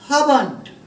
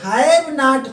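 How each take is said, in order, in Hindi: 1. इसे एक संकुचित शब्द की तरह बोला जाता है। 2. इसे दो पूरे अलग शब्दों की तरह बोला जाता है।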